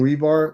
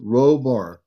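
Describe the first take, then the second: First: The first syllable does not sound like 'row'. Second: The first syllable sounds like 'row' in rowing. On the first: The speaker calls it wrong. "you keep saying Rebar" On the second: The speaker calls it right. "like rowing a boat"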